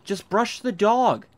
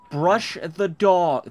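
First: Slow, higher, louder "Just brush the dog"; exasperated order. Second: Very slow, spaced "Brush the dog", stress on "Brush"; slower repeat. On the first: Player ordering the Sim, slow exasperated command. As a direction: lean on "dog", drawn out in exasperation. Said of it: "So fat". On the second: Player repeating the order, slow and weary. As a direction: drag each word out, hammering "Brush". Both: Real, not acted.

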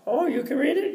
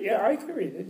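First: Very high questioning cleaning lady. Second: Lightly voiced scholar, somewhat raised pitch; scholar's answer. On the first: Acted. Cleaning lady questions the scholar about his reading, high voice. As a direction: imitate her in a high voice, rising at the end. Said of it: "she says". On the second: Scholar assures cleaning lady he can read, lightly acted answer. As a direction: answer her as the scholar, a little high.

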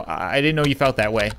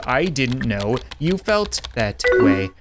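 First: Said in the usual way. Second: Word by word, evenly spaced; slow, deliberate. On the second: Acted. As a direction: spell it out slowly for her. Same answer repeated deliberately.

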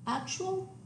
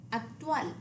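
First: Actual as AK-choo-ul, high and rising; English actual with a ch sound; English pronunciation. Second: Actual as ahk-TWAL, falling; Spanish actual, end-stressed with a clear t; Spanish pronunciation. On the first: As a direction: say actual the English way, front-stressed. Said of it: "The English word". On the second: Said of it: "stress on the last syllable". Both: Shown as a demonstration.

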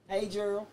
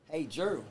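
First: A light put-on greeting voice; lightly voiced uncle saying hello; Uncle Tony voice. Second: Understated mock greeting. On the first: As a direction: greet Gerald in Uncle Tony's voice. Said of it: "You hear that voice?". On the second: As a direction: show how Uncle Tony would not say it. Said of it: "Uncle Tony ain't no".

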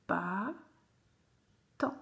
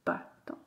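First: Bâton split as "bâ - ton"; long pause inside Bâton; syllable by syllable. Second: Said in the usual way. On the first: Shown as a demonstration. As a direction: sound out Bâton in two pieces. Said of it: "faire les syllabes". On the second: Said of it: "coller les syllabes".

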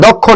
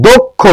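First: দক্ষ with an open "aw", "dawkkho"; wrong pronunciation demo. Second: দক্ষ with a closed "o", "dokkho"; correct pronunciation demo. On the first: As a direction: say দক্ষ as "dawk-kho". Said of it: "এটা দক্ষ না". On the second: Teacher correcting students, দক্ষ with closed "o". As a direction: say দক্ষ as "dok-kho", rounded o. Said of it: "এটা কিন্তু দক্ষ". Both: Shown as a demonstration.

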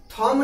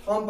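First: थॉम said as "thomb", with a final B; wrong reading, थॉम ending in "mb"; B pronounced. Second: थॉम ending cleanly on M; silent B. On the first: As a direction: add an audible B after the M of थॉम. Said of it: "थॉम नहीं". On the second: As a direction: say थॉम with no B after the M. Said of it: "यहाँ थॉम पढ़ेंगे". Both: Shown as a demonstration.

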